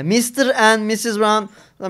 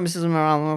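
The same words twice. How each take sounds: First: Mister and Missus Brown slowly, each word separated. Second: Missus Brown slurred quickly into one blur; Missus Brown melted together. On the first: Showing the speech a learner expects, Mister and Missus Brown said word by word. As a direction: spell out Mister and Missus Brown at half speed. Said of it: "tane tane". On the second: Mimicking how natives melt sentences, Missus Brown run together. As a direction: swallow the sounds of Missus Brown. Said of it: "Onlar eritiyor". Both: Shown as a demonstration.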